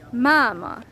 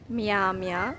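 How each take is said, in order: First: The m sounds are hard, with no y-glide. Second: The m sounds are soft, with a y-glide. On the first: The speaker calls it right. "So the M sound is pronounced hard" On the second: The speaker calls it wrong. "it's not mia mia, because that would be wrong"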